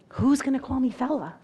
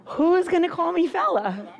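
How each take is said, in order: First: Said in the usual way. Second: Louder, higher, through a laugh. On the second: Real, not acted. Teacher repeats joke to retiring colleague, laughing. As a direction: laugh it out the second time.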